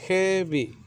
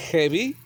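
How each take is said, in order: First: "heavy" drawn out as hea-vy, higher, falling at the end; teacher stretching "heavy" into two syllables; syllable demonstration. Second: Said in the usual way. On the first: Shown as a demonstration. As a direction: sound out both beats of "heavy". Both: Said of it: "Two syllables".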